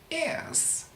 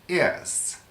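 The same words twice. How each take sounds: First: The word is said at a higher pitch. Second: The word is said at a lower pitch.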